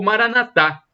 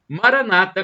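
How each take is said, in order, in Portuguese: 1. A tônica fica na última sílaba. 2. A tônica fica na penúltima sílaba. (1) "a tônica está na última sílaba" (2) "com a tônica na penúltima sílaba"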